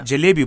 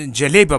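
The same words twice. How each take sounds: First: जलेबी said properly with a clear final ee; corrected jalebi. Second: जलेबा said with a broad final a, like jaleba; mispronounced jalebi. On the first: Guest repeats जलेबी properly after the host's correction. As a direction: fix it to जलेबी, ending on a long ee. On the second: Guest slips and names the sweet जलेबा, then is corrected. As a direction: slip into जलेबा with an open aa ending. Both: Real, not acted. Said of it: "जलेबी, अच्छा".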